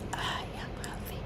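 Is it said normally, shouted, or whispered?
whispered. It is whispered very softly. "You can whisper"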